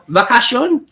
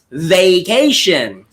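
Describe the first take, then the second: First: The first vowel is not a long A. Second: The first vowel is a long A. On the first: The speaker calls it wrong. "hindi uh, vacation o vacation" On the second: The speaker calls it right. "yung first two syllables ay parehong long A"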